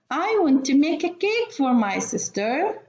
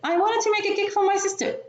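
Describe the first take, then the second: First: The sentence is read at a faster pace. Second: The sentence is rushed with some words swallowed. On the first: The speaker calls it right. "maybe I will read it more or faster than before" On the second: The speaker calls it wrong. "they want to show me that they can read fast"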